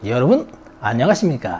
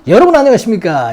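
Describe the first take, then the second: First: It is said in a lower, calmer tone. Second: It is said in a high, raised tone.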